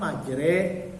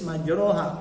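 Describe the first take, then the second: First: The vowel after the r leans toward e. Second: The vowel after the r is an open a. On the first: This is how the word is actually recited. "kok dibaca majre" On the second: This is how the word is written. "Tertulis majroha"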